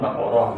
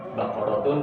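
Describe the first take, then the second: First: The word ends in a shortened -ah sound. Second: The word ends with a full -atun ending. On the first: This is the everyday shortened form. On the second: This is the full original form.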